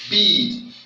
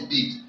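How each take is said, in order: First: The vowel is said long. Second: The vowel is said short. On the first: The speaker calls it right. "Bead is long" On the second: The speaker calls it wrong. "you can't call this bead"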